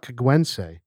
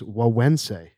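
First: The G sounds are pronounced hard. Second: The G sounds are soft, almost silent. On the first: The speaker calls it wrong. "It is not" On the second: The speaker calls it right. "It is Güegüense. Even though there's a lot of G's in it"

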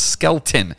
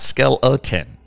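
First: The name is said with two syllables. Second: The name is said with three syllables. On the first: The speaker calls it right. "it's Skeleton" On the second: The speaker calls it wrong. "not Skeleton"

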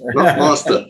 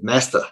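First: The word is said with a British accent. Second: The word is said with an American accent. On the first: "Not master" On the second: "I even said it the American way"

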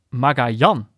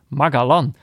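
First: The name has a y-like middle sound. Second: The name has a hard g and a plain l. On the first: The speaker calls it right. "In het Spaans natuurlijk uitgesproken wordt als Magajan. Met de klemtoon op de laatste lettergreep" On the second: The speaker calls it wrong. "op zijn Hollands uit. Met een Engelse G"

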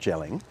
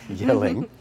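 First: The word begins with a J sound. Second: The word begins with a Y sound. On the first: The speaker calls it wrong. "not Gelling" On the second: The speaker calls it right. "So we're here in Yelling"

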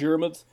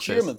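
First: The name begins with a plain D sound. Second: The name begins with a J sound.

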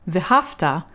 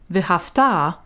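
First: The stress falls before the final syllable. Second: The stress falls on the final syllable. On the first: The action happened in the past. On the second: The action will happen in the future.

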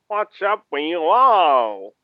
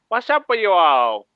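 First: It is spoken in a Southern US accent. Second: It is spoken in a New York accent. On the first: The speaker calls it wrong. "I was going for New York and then it slipped southern" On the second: The speaker calls it right. "I'm going to try and stick with New York"

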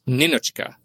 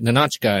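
First: The name is said with a Russian pronunciation. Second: The name is said with an English pronunciation. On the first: The speaker calls it right. "it's Ninotchka" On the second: The speaker calls it wrong. "I keep calling it Ninotchka"

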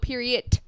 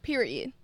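First: The final D is hard and strongly released. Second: The final D is soft and light. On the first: "Some people go period" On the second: "that's not a hard D"

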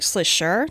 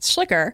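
First: The surname is said the German way. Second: The surname is said the usual American way. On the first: The speaker calls it right. "in German, it's actually more like" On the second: The speaker calls it wrong. "we would say"

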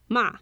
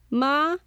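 First: The pitch falls sharply from high to low. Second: The pitch rises from mid to high.

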